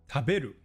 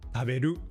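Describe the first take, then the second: First: The high pitch is on the middle syllable. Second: The high pitch is on the last syllable. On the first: "It's on the be in the middle" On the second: "or at the end"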